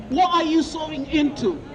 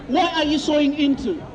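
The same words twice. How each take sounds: The two takes are said the same way.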